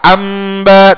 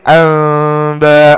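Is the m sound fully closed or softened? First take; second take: closed; softened. First: The m is said with lips tightly closed. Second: The m is softened with lips not tightly closed. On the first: The speaker calls it wrong. "enggak amba" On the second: The speaker calls it right. "tapi amba, mimnya disamarkan"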